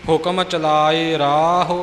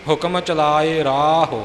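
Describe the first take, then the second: Both takes have the same delivery.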